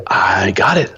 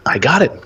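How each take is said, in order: First: Said in the usual way. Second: Eager. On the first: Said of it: "first take". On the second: Retold or imitated. Eager agreement, repeated.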